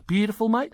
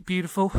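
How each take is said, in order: First: Australian twang, higher and louder on "mate"; playful Australian impression, "mate" rising; mock Australian accent. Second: Said in the usual way. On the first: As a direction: ham up an Aussie "Beautiful, mate". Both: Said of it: "I don't know why we're Australian".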